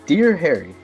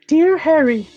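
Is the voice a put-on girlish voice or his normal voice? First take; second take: normal; girlish. First: It is read in his ordinary speaking voice. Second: It is read in a put-on girlish voice. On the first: "I was going to consider reading this in a girl voice, but I think I'm going to pass" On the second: "So we got a yes. This is gonna be awful"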